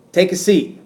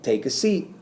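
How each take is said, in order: First: Higher, louder order, punch on "Take"; commanding. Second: Said in the usual way. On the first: Shown as a demonstration. Teacher showing an imperative reading of "Take a seat". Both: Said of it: "simply by the way it's said".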